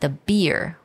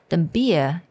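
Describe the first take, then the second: First: The R sound in beer is pronounced. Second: The R sound in beer is dropped. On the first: "我们通常如果用美式发音的话" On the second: "er 的这个音就不要把它发出来"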